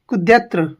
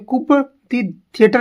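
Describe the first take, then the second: First: Coup is said without a p sound. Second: Coup is said with a p sound. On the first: The speaker calls it right. "इसे बोलेंगे कुद्यत्र" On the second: The speaker calls it wrong. "इसे कुप दी theatre नहीं बोलेंगे"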